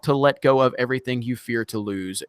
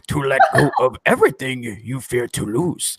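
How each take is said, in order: First: It is read in the speaker's normal voice. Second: It is said in a put-on Yoda voice.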